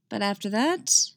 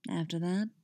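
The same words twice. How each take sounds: First: Said in the usual way. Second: After that dropped softer, lingering; dark promise. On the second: Acted. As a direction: after that murmured as a seductive promise. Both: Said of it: "voice full of dark promise".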